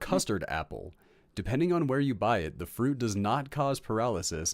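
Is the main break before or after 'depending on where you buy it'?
before. The phrase break comes before 'depending'. The speaker calls it wrong.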